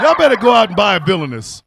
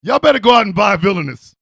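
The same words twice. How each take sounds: First: Said through real laughter; giggling plug; laughing. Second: Quicker and louder hype pitch; hyped shouted ad; fast shout. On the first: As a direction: laugh while pitching it. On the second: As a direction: yell the plug fast. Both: Real, not acted. Plugging the candle, repeated.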